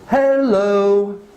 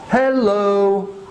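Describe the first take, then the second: No difference in how they are said.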